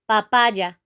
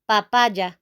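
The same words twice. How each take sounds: First: The word is said with a Spanish pronunciation. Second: The word is said with a Spanish pronunciation.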